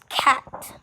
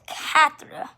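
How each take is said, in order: First: The word ends sharply on a 't' sound. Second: The word ends with a trailing 'r' sound. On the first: The speaker calls it right. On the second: The speaker calls it wrong.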